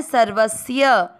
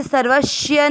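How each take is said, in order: First: सर्वस्य with a clean s, sarvasya, slowly; correct s sound. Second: सर्वस्य said with sh, sarvashya; wrong sh sound. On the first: Teacher showing students the correct sarvasya, slowly. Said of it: "तो इसको ऐसे ही पढ़ा, पढ़ना है". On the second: Teacher showing students the wrong sarvashya pronunciation. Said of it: "स संतों वाला है". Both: Shown as a demonstration.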